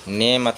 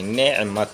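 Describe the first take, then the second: First: The word is said without the throat consonant. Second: The word is said with the throat consonant. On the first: The speaker calls it wrong. "नेमत नहीं" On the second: The speaker calls it right. "ऐन निकालना चाहिए"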